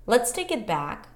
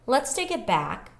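Both takes have the same delivery.

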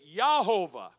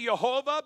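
First: The name begins with a Y sound. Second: The name begins with a J sound. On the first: This follows the ancient Hebrew. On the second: This is the common modern way of saying it. "I say Jehovah"

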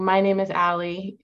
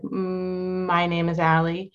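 First: It is said smoothly without interruption. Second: The first sound is stretched out long.

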